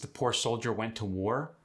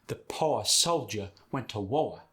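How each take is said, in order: First: It is said in a standard accent. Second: It is said in a Southern accent.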